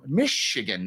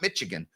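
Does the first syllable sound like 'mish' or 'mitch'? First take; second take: mish; mitch. First: The first syllable sounds like 'mish'. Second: The first syllable sounds like 'mitch'. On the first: The speaker calls it right. "Mish is M Y S H, not Mitch" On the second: The speaker calls it wrong. "not Michigan"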